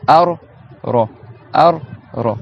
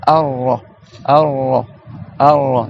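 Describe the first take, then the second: First: Ar-Ra split as Ar, pause, Ra; two separate Rs. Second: Ar-Ra joined, R held without a break; linked double R. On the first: Teacher showing students Ar-Ra in two separate pieces. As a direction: break Ar-Ra between its two Rs. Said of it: "tu fais deux lettres". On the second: Teacher drilling students, Ar-Ra linked on a held R. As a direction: hold the R through Ar-Ra. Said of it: "en faisant la liaison". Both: Shown as a demonstration.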